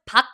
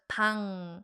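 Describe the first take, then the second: First: The syllable ends in a k sound. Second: The syllable ends in an ng sound. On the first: This is how the syllable is written. "I know it's 박" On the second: This is how the syllable is actually said. "but it's really pronounced as 방"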